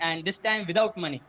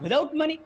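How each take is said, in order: First: Said in the usual way. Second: High incredulous echo, rising sharply; shocked question. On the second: Acted. Boy to rich dad on hearing the unpaid terms, shocked. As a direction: throw it back in acted disbelief.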